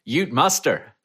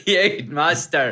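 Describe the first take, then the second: First: [name]'s halting try at an Australian Ute Muster; a weak stab at Australian on Ute Muster; failed Australian accent. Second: Ute Muster slowly, higher, laughing, in a passable Australian accent. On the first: Asked to pronounce it, [name] attempts Australian, falls flat. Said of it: "I can't do an Australian accent". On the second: Second try on the game show, [name] lands a laughing Australian accent. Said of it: "He got an accent right". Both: Shown as a demonstration.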